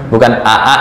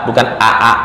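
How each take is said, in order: No difference in how they are said.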